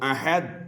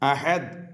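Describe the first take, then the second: Both takes have the same delivery.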